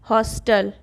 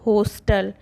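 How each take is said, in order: First: The first vowel sounds close to an open 'a'. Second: The first vowel sounds like a rounded 'o'. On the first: The speaker calls it right. "इसको अ की ध्वनि से उच्चारित करते हैं" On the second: The speaker calls it wrong. "ना कि"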